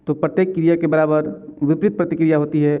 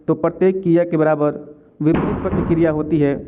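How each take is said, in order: Both takes have the same delivery.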